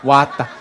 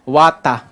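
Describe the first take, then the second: First: Laughing "Wata", r dropped, Aussie style; chuckling Australian "Wata"; Australian accent. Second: "Wata" with no r, Aussie style; mock Australian "Wata"; Australian accent. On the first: Retold or imitated. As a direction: repeat "Wata" like the Aussie officer. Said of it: "Di ba, water yun". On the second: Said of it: "parang si [name]".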